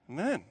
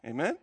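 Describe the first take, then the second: First: "Amen" falling at the end as a statement; affirming Amen. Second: "Amen" rising at the end as a question. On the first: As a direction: confirm "Amen", voice dropping to a close. Preacher confirms his own question. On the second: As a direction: ask the congregation "Amen", voice lifting at the end. Preacher asks congregation to agree. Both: Real, not acted.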